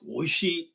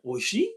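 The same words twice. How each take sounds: First: The pitch falls at the end, like a statement. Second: The pitch rises at the end, like a question. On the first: It is nice. "It's like means oh, nice" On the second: Is it nice? "If it's a question, it's like"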